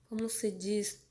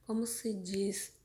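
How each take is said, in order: Both takes have the same delivery.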